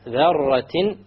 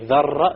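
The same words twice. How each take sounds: First: The R sound is a single tap, not rolled. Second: The R sound is rolled, trilled several times. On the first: The speaker calls it right. "You make sure there is no rolling of the R" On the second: The speaker calls it wrong.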